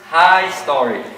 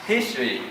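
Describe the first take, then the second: First: The first syllable sounds like 'high'. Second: The first syllable sounds like 'hiss'. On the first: "they say high story" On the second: "instead of saying history"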